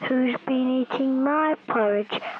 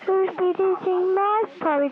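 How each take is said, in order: First: It is said in a big, deep voice. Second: It is said in a very light voice. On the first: The biggest bear is speaking. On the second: The littlest bear is speaking.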